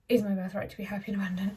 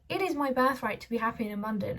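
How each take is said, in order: First: It is said quickly and offhandedly. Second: It is said slowly and with conviction. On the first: The speaker does not truly believe it. The speaker calls it wrong. "just read it really quickly" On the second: The speaker takes it in and believes it. The speaker calls it right. "you can do it another way"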